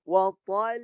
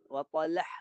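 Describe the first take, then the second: First: The final h sound is not heard at all. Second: The final h is joined to an added vowel. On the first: "Ha tak bunyi" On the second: "dicantum ... dia tiba-tiba bertambah pula baris"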